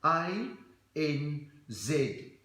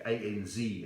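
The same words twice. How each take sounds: First: "A N Z" with Z said as "zed"; Aussie "zed" pronunciation. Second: Said in the usual way. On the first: Acted. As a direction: spell out "A N Z" in Australian, A like "eye", Z as "zed". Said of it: "it's pronounced Z". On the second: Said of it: "you've gotta pronounce it right".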